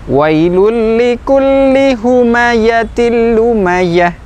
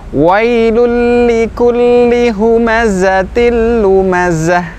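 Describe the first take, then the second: First: The zain is pronounced like a y sound. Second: The zain is pronounced as a clear z sound. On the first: The speaker calls it wrong. "Contoh yang keliru ketika mengucapkan huruf zain masih seperti huruf ya" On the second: The speaker calls it right. "huruf zain z, z, ya seperti itu"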